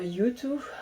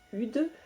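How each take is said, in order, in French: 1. Le mot est prononcé dans sa forme complète. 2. Le mot est prononcé sous une forme raccourcie et modifiée. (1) "au lieu de dire euh, YouTube" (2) "quand j'étais plus jeune ... j'appelais euh, ça Ude"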